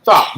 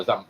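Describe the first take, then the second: First: Stop, raised and louder; sharp louder stop. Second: Said in the usual way. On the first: Real, not acted. Telling the child a second time, a louder sharp stop. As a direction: bark the second stop at her.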